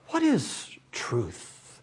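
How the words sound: It is said slowly as a sincere, thoughtful question.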